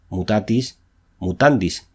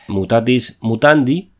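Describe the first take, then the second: First: The last word ends with an s sound. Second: The last word ends without an s sound. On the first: The speaker calls it right. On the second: The speaker calls it wrong.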